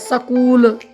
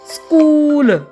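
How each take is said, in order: First: The opening cluster is broken up by a break. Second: The opening cluster is said at once, without break. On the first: The speaker calls it wrong. "हमारे बहुत सारे साथी स्कूल या स्कूल जैसे शब्दों का उच्चारण करते हैं" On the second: The speaker calls it right. "तुरंत बोल रहे हैं स्कूल। एक भी उसमें ठहराव नहीं ले रहे हैं।"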